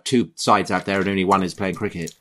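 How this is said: The Australian accent is faint and unconvincing. The speaker calls it wrong. "That was not a very good Australian accent by your standards"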